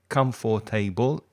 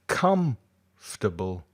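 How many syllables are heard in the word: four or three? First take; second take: four; three. First: The word is said with four syllables. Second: The word is said with three syllables. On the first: The speaker calls it wrong. "It's not comfortable" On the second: The speaker calls it right. "it's actually only three"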